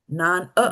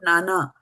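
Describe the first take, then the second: First: The second vowel is kept short. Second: Both vowels are held long. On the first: The speaker calls it right. "It's not nana" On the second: The speaker calls it wrong. "Nana will mean that both the A have a bar on top of it"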